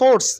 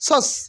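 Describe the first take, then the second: First: The r sound is pronounced. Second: The r sound is silent. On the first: The speaker calls it wrong. "Not সোর্স" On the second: The speaker calls it right. "আর will be silent হেয়া"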